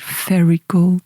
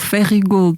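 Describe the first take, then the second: First: The name is said with an English pronunciation. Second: The name is said with a Portuguese pronunciation. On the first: This is how the host said it. "achei muito engraçado tu dizeres Fairy Gold" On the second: This is how people in the home town say it. "Não há cá pronúncia nenhuma à inglesa"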